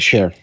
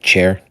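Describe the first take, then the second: First: The name starts with a soft 'sh' sound. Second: The name starts with a hard 'ch' sound. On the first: "Share is how you pronounce it" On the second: "Though I pronounce I, I like chair"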